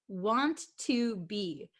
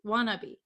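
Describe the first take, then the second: First: Three separate words, each said fully. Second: Said fast, blended into one reduced word. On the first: "when we say want to be" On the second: "when we speak really fast, it becomes wannabe"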